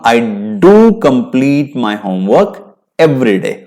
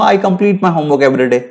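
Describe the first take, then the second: First: "do" pressed hard, slow deliberate pace; stress on do. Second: Said in the usual way. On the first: Shown as a demonstration. Teacher contrasting plain and emphatic do. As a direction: punch "do" in "I do complete my homework". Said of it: "emphasise करके बोलना है, जोर देके". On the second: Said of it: "अब मैं simple बोलूंगा".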